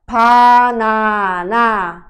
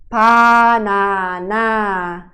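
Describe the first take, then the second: No difference in how they are said.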